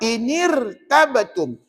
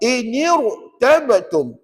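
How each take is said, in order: First: The r is thin, said with a smile. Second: The r is thick, said without smiling. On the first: The speaker calls it wrong. "Kalau salah" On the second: The speaker calls it right. "Yang betul"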